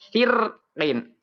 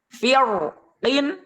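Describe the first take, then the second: First: The r is pronounced light and thin. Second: The r is pronounced heavy and thick. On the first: "boleh juga dibaca" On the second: "boleh dibaca tafkhim"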